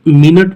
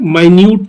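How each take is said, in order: First: The first syllable sounds like 'min'. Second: The first syllable sounds like 'my'. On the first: "एक तो हम मिनट पढ़ते हैं, मिनट मतलब समय" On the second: "एक M I N U T को हम क्या पढ़ते हैं, माइन्यूट"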